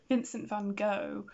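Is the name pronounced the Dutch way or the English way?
English. The name is pronounced with English sounds. The speaker calls it wrong. "when we in England say Vincent Van Gogh ... we are saying it incorrectly"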